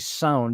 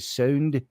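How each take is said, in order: First: It is said in a plain, neutral accent. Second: It is said in an old Scottish accent. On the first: The speaker calls it wrong. "you don't just say sound" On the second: The speaker calls it right. "you say sound"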